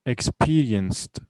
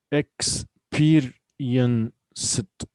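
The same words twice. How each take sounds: First: Said in the usual way. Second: "Experienced" very slow, in separate beats; syllable by syllable. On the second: Shown as a demonstration. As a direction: break "Experienced" into ex, peer, ien, ced. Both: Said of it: "we have four syllables here".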